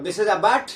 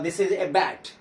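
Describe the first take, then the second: First: "a" said as a clear ay; stressed a. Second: Said in the usual way. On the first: Shown as a demonstration. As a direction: lean on the "a" a little. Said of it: "stress करेंगे". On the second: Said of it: "सामान्य तौर पे".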